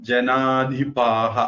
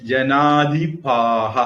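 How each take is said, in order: No difference in how they are said.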